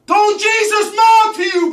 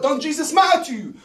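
First: High, loud shouted repeat; shouting. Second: Half-laughing through the rant question; chuckling while he asks, amused with himself. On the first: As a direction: yell the question. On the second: Ranting guy asks the therapist, laughing. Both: Acted.

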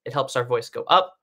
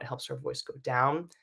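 First: Pushed up with extra breath pressure on "up"; more pressure. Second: Softer, letting the air out on "down"; relaxed release. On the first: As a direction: press the air so "up" lifts. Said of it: "When we add more pressure here". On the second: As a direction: relax and let "down" sink. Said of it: "When we relax and we let our air out". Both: Shown as a demonstration.

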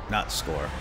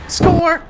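First: Said in the usual way. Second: High loud cheer; 1 excited cheer. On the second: Real, not acted. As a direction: shout it like a goal. Hits football with car.

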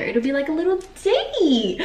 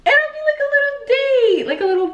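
First: Said in the usual way. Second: Much higher, louder, cutesy squeal. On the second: Shown as a demonstration. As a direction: repeat it in a high cutesy voice.

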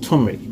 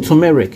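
First: "turmeric" as TUM-rik, two syllables; local pronunciation. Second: "turmeric" as too-MEH-rik, three syllables; Ghanaian pronunciation. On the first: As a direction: drop the middle vowel of "turmeric", the local way. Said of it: "Here we call it turmeric". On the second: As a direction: sound out every vowel in "turmeric", Ghanaian style. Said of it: "Ghanaian people call it turmeric". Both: Shown as a demonstration.

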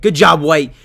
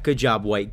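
First: Much louder cheer; loud praise. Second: Said in the usual way. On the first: Real, not acted. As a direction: call it out loudly.

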